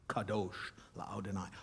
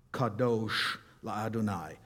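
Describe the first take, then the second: First: Kadosh la'Adonai, much softer and lower; soft reverent repeat. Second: Kadosh la'Adonai in careful Hebrew; Hebrew phrase. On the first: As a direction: hush it like a prayer. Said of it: "holy to God". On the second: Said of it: "holy unto God". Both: Shown as a demonstration.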